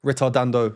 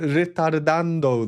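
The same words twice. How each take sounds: First: It is said in the speaker's ordinary accent. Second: It is said in an exaggerated, put-on accent.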